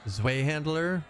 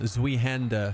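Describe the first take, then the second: First: The second word has an L sound. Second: The second word has no L sound.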